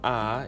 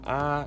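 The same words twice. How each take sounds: First: The pitch rises from middle to high. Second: The pitch stays level throughout. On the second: "it's flat"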